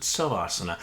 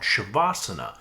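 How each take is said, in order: First: The word begins with an 's' sound. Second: The word begins with an 'sh' sound. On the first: "Bikram pronounces it Savasana" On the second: "we do what's called Shavasana"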